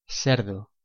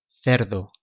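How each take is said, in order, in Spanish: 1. La c suena como una s. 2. La c suena como th en inglés.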